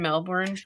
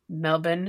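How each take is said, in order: First: The name is said with an American pronunciation. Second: The name is said with an Australian pronunciation. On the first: The speaker calls it wrong. "I'm probably saying that incorrectly" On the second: The speaker calls it right. "Is how you would say it. Australia"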